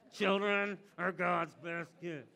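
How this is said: It is said through tight, gritted teeth.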